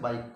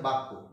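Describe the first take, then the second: First: An extra i vowel comes before the k. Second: It has no extra vowel before the k. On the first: "হর্ষই ধ্বনি আগে আসার ফলে হয়ে গেছে বাক্য" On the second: "পরবর্তী একটা শব্দ দেওয়া আছে বাক্য"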